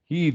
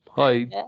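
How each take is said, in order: First: The vowel sounds like 'eh'. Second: The vowel sounds like 'eye'. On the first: It is read the way Turkish spelling would suggest. The speaker calls it wrong. "ben hep "he" diye okuyordum" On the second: It is the English pronunciation. The speaker calls it right. ""Hay" bir türlü diyemiyordum"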